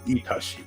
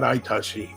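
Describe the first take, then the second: First: The word begins with an ee sound. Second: The word begins with an eye sound. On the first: The speaker calls it right. "Itashimasu is like this" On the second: The speaker calls it wrong. "Don't say Aitashi. Not Aitashi"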